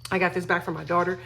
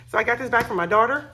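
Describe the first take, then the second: First: Said in the usual way. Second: Higher and louder, eager; excited reveal. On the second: Real, not acted. Telling viewers about the daughter's gift, excited. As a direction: burst out with the news.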